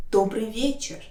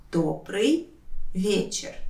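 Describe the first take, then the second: First: Said in the usual way. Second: «Добрый», pause, «вечер»; careful breakdown of «Добрый вечер»; word by word. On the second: Shown as a demonstration. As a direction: say each word separately for learners. Teacher separates words for learners.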